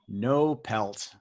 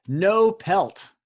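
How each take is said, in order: First: Said in the usual way. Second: Punchy announcement. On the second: Acted. Host announces anagram clue.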